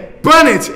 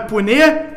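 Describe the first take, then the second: First: The name ends in a t sound. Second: The name ends in an open e vowel. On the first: The speaker calls it right. "é Punnett, ele é britânico" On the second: The speaker calls it wrong. "não é Puné"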